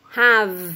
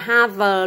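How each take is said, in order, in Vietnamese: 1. Âm v cuối chỉ mấp máy môi, không phát ra. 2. Âm v cuối được phát ra rõ ràng thành tiếng. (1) "Mình sẽ chỉ làm khẩu hình miệng của âm thôi nhá" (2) "Mình không đọc là have luôn"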